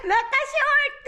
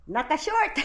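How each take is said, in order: First: Naka-short squealed high through laughter; high giggly Naka-short; laughing high. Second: Said in the usual way. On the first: Real, not acted.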